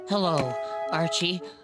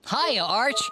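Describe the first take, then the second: First: It is said in a depressed tone. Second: It is said in a cheerful tone.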